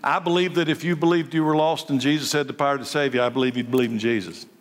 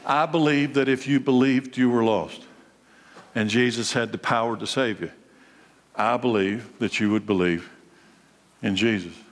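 First: It is said at a normal pace. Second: It is said more slowly.

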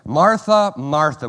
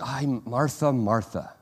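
First: It sounds annoyed and exasperated. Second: It sounds warm and tender.

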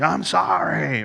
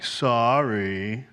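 First: It is said angrily, in a hot rage. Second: It is said in a grudging, insincere tone.

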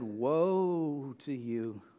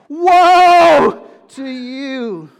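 First: It is said mildly, without force. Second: It is said forcefully, with passion.

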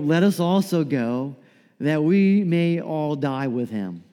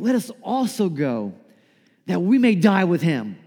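First: It is said in a gloomy, mournful tone. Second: It is said in an eager, rallying tone. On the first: Thomas is a pessimist expecting the worst. "if you read this in the voice of like Eeyore" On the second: Thomas is a warrior ready to fight. "what if Thomas had more of like a warrior mentality?"

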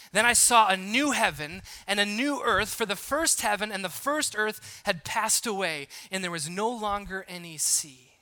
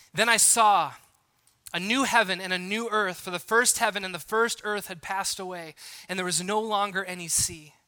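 Both takes have the same delivery.

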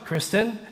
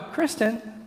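First: The name is said in a weary, exasperated tone. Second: The name is said in a coaxing, pleading tone. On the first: The speaker wants the other person to handle misbehaving children. "that means the kids are acting up and I don't want to be the one to discipline them" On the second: The speaker wants something fetched without getting up. "That means I want her to go get me something from the kitchen and I don't want to get up"

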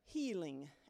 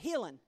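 First: It is said in a standard accent. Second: It is said in a Southern US accent.

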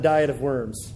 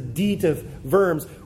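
First: Worms is said like the English word worms. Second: Worms is not said like the English word. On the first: The speaker calls it wrong. "not Diet of Worms, not like the kids' book" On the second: The speaker calls it right. "it's a Diet of Worms"

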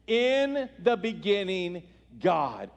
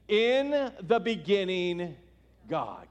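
First: It is said forcefully, with conviction. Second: It is said plainly, without extra force.

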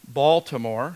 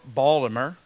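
First: It is said in a standard, general pronunciation. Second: It is said in a clipped local accent.

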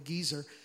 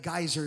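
First: The word is said the Icelandic way. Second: The word is said the usual English way. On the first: "they called it a geezer" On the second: "the geyser is actually what it's called"

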